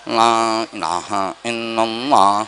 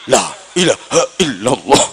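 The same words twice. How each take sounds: First: It is recited weakly and with little energy. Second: It is recited firmly and with strong energy. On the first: The food package handed out is small. "berkatnya cilik gepeng" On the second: The food package handed out is big. "mantep itu kalau berkatnya gede"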